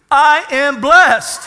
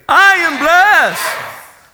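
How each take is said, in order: First: Loud, high, slow proclamation; drawn-out, forceful pulpit cry; congregational declaration. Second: Very drawn-out, high, full-force shout; huge, slow declaration, each word stretched; say it like you mean it. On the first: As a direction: call it out for the congregation to repeat. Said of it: "Say this with me". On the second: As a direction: belt it out with total conviction. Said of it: "say it like you mean it". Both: Shown as a demonstration.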